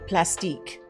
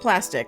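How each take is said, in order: First: The name is said with a fancy French-style ending. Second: The name is said like the ordinary English word. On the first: The name is made to sound posh. "try to make names sound fancy. We would always say the plastique" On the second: The name is just the everyday word. "I think it's just plastic"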